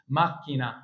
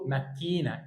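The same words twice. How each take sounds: First: ماكينه stressed on the first syllable, MAK-ki-na; ماكينه as Italian MAK-kee-na, short ending; correct pronunciation. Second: ماكينه with a long stressed "ki", single k; ماكينه said wrongly as ma-KEE-na; wrong pronunciation. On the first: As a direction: punch "mak" with a doubled k in ماكينه. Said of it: "اكسر بقى تبقى اسمها ماكينه". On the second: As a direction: stretch the middle of ماكينه: ma-KEE-na. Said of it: "في ناس غلط بتقول منكم". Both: Shown as a demonstration.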